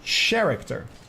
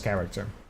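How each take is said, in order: First: The word starts with a throaty ch sound. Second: The word starts with a hard k sound. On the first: The speaker calls it wrong. "in the Netherlands, the C H is a ch" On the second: The speaker calls it right. "Finding out way too late, it was character"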